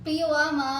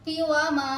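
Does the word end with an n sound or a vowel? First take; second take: vowel; vowel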